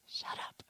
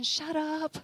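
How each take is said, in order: First: Hushed whisper, no voice at all; whispered command. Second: High, sing-out comic retort; playful mock retort. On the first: Retold or imitated. God speaking privately to the preacher, whispered. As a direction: whisper it as an intimate order. Retells God's word to her. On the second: God silencing the preacher, playful high retort. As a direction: pitch it way up, teasing.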